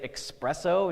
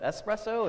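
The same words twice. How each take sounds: First: The word starts with an 'ex' sound. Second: The word starts with an 'es' sound. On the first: The speaker calls it wrong. "unless you say espresso instead of" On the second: The speaker calls it right. "instead of"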